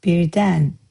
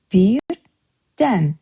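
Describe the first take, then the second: First: Birden said with a falling tune; word of the day. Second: Birden repeated louder and drawn out; a second, slower and louder birden; echoed teaching model. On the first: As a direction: clear teaching model of birden. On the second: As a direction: stretch out birden, falling slowly. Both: Shown as a demonstration. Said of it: "Master Azerbaijani word of the day presents".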